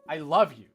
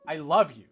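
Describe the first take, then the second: First: The stress falls on the word love. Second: The same.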